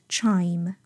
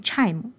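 First: "chime" with a long, full eye glide; correct chime. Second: "chime" with a short vowel and added "mu" ending; wrong chime. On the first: Teacher corrects learners, "chime" said slowly with full diphthong. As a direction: slowly stretch "chime", closing cleanly on m. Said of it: "而是chime". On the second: Teacher shows learners what to avoid, "chime" as "chaimu". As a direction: cut the glide in "chime", tack on a vowel after m. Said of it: "而不要念chime". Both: Shown as a demonstration.

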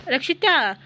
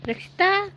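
First: Rakshita called again with a firm falling end; insistent falling call of Rakshita; second call. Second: High rising call of Rakshita, much higher pitch. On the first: (Rakshita ಎಂದು ಇಳಿಯುವ ಧ್ವನಿಯಲ್ಲಿ ಮತ್ತೆ ಕೂಗು) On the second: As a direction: call Rakshita from across the house, voice climbing. Mother-in-law calls from outside. (Rakshita ಎಂದು ಎತ್ತರದ ಧ್ವನಿಯಲ್ಲಿ ಕೂಗುವುದು) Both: Acted.

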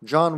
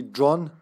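First: Said in the usual way. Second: John said the Serbian way; Serbian pronunciation. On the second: Shown as a demonstration. Showing the team John's Serbian name, Serbian pronunciation of John. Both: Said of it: "how would we say in Serbian".

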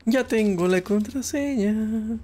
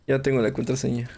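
First: Slow, higher, savoring each word; drawn-out triumph. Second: Said in the usual way. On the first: Pretend. Gamer gloating to himself over the found password, slow and high. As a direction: stretch it out like a little victory. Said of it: "repeats line, first drawn out". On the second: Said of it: "repeats line, second plain".

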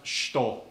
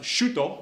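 First: "shito" squeezed to shtoh, middle vowel dropped; compressed U. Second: "shuto" with the U fully voiced; full U in shuto. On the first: Teacher showing the Japanese way, "shito" with the vowel compressed. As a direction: say "shito" as one syllable, shtoh. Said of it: "middle of the word is compressed". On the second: Teacher showing the uncompressed way, "shuto" with a clear oo. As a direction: say "shuto" as two full syllables, shoo-toh. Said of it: "instead of being pronounced shuto". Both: Shown as a demonstration.

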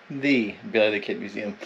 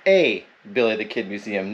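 First: "the" said as a stressed "thee". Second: "a" said as a long "ay", stressed, pitched low. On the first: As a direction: punch "the" as "thee". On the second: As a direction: lean on "a" as "ay". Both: Shown as a demonstration. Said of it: "You notice I didn't say the Billy the Kid Museum".

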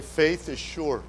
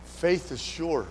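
First: Faith is sure said slowly again, FAITH stressed and falling; preacher says the line with the church; slow call-and-response repeat. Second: Faith is sure said slowly, FAITH stressed with a falling end; preacher leading the words for the church to repeat; slow emphatic declaration. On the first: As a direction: echo it slow so they join in. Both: Shown as a demonstration.

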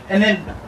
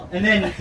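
No difference in how they are said.

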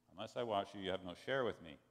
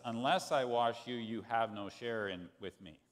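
First: Said in the usual way. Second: Louder, blunter take on I and wash; a little rough. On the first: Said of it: "sounds a little odd". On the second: Retold or imitated. Jesus answering Peter's refusal, a little rough. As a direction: say it a bit rough and stern. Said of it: "sounds a little odd. It sounds a little rough".

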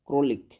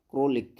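No difference in how they are said.

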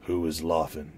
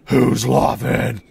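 First: Said in the usual way. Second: Hammed-up, slow bellow; loud second take. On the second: Corrected reply to the hooded stranger, hammed-up bellow. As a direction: bellow the question, drawn out and very loud. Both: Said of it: "No, sorry, uh".

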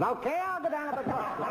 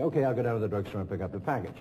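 First: Much higher, laughing through the line; high imitation. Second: Said in the usual way. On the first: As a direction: squeak it out, cracking up. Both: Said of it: "I'm trying to imitate them".

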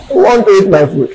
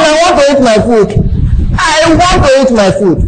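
First: Said in the usual way. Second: Put-on high, insistent child asking for food; mild mock childish demand; child's whine. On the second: Shown as a demonstration. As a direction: nag like a hungry little son. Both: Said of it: "Be like my son".

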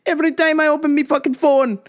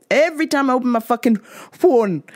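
First: Higher and quicker, a touch of Jamaican; building rant. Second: Said in the usual way. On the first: Real, not acted. Host ranting about his phone full of [name] news, building up. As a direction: ramp it up on the repeat. Repeated rant line escalating.

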